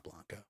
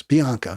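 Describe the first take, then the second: First: "Blanco" with an L after the B, BLAHN-co; much softer "Blanco", BLAHN with an L; mistaken name. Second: "Bianco" with an i after the B, bee-AHN-co; corrected name. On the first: Host dismissing his own slip on the name, soft BLAHN-co. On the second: Host correcting the candidate's name, bee-AHN-co. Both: Shown as a demonstration. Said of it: "not Blanco".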